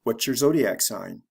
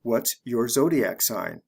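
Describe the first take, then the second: First: "What's your" blended into "whatchur", quick and linked; natural fast connected speech. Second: Slow, careful "What's your zodiac sign?" with "your" kept separate; deliberately slow teacher model. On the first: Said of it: "the fast way". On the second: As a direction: spell it out slowly, word by word. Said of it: "I'll say it the slow way". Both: Shown as a demonstration.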